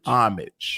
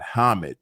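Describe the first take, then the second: First: The word begins without any H sound. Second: The word begins with a pronounced H sound. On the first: The speaker calls it right. "So it's a silent H" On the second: The speaker calls it wrong. "It's not homage"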